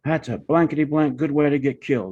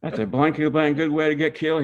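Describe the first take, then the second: First: Angry cussing. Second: Mock angry cussing. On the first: Retold or imitated. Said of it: "He's cussing".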